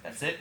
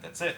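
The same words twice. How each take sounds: First: "That's it" softly, rising at the end; surprised question. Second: "That's it" softly, as a closed statement; matter-of-fact confirmation. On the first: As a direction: ask "That's it" as a quiet question. Pupil checks with the principal. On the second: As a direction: confirm "That's it" without any rise. Principal confirms. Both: Retold or imitated.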